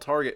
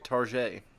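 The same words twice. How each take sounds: First: The final T is clearly pronounced. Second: The final T is left silent.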